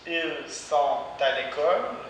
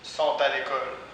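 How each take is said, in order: First: The pronoun 'ils' is clearly pronounced. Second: The pronoun 'ils' is left out.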